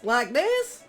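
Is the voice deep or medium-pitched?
medium. The voice is pitched in a middle range. "kind of a medium voice, like middle voice"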